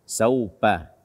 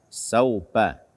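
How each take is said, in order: No difference in how they are said.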